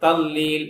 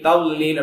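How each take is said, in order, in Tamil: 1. நடுவில் உள்ள மெய்யெழுத்து l ஒலியாக உச்சரிக்கப்படுகிறது. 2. நடுவில் உள்ள மெய்யெழுத்து l ஒலியாக உச்சரிக்கப்படுகிறது.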